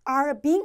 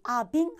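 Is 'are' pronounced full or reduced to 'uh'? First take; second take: full; reduced. First: The word 'are' is pronounced fully. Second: The word 'are' is reduced to 'uh'. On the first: "아니고" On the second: "어처럼 발음 난다는 거"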